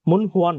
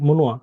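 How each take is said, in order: First: The h sound after mun is clearly pronounced. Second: The h sound after mun is dropped entirely. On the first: The speaker calls it wrong. "মুন হুয়া না" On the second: The speaker calls it right. "হিয়ত বাদ দিয়ে দেন"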